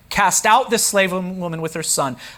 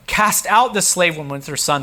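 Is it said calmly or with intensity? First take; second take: calmly; intensity. First: It is read calmly, without intensity. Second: It is said with strong intensity.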